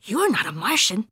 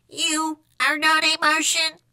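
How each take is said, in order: First: Quick, lively contradiction; exclaiming kitty boy. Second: High monotone, each word separate; Martian echo. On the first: Skipito challenging the Martian, exclaiming. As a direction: say it with a swooping tune. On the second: Martian copying Skipito's challenge, monotone echo. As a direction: intone it slowly on one note. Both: A narrator's reading.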